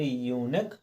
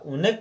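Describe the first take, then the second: First: The word starts with a 'yoo' sound. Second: The word starts with a short 'oo' sound. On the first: The speaker calls it right. "यूनिक पढ़ा है" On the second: The speaker calls it wrong. "उनिक ना पढ़ करके"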